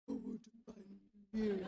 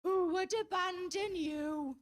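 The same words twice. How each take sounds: First: Lower, tender murmur to the cat. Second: Slow, louder, cooing over a pet; doting baby talk. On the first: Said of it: "he goes". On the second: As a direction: coo it like he's melting over the cat. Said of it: "he looks her right in the face and he goes". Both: Retold or imitated.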